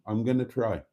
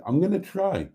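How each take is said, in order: First: Said in the usual way. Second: First take pitched well up, falling; a lifted, half-jokey promise; high first try. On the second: Real, not acted. To himself about the new season, high and bright.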